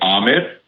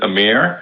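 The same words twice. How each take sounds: First: The name is said with its native-language pronunciation. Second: The name is said with an English-style pronunciation. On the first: This is the exact original pronunciation. "the exact vernacular pronunciation would be Amir" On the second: This is how it is usually said in the West. "in the West, it's mostly pronounced as Amir"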